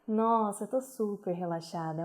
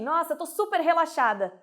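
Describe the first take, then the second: First: The voice sounds loose and relaxed. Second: The voice sounds tense and forced.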